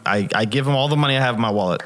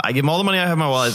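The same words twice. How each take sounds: First: Said in the usual way. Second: Rushed excited retelling. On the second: Retold or imitated. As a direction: rattle it off in a hurry, eager.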